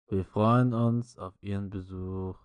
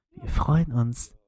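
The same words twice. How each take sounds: First: Slowed, silly ad voice; hammy commercial read, slowed down; chipper 1950s ad. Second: Slow, loud drawn-out ad read; monotone ad voice. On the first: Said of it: "in richtig behinderter Stimme". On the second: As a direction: drone it like a cheesy commercial. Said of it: "richtig monoton in der Scheißstimme". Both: Retold or imitated.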